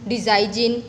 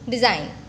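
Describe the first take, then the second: First: A G sound is pronounced in the word. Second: No G sound is pronounced in the word. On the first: The speaker calls it wrong. "Do we say it as sign, design? No" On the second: The speaker calls it right. "The letter G is silent"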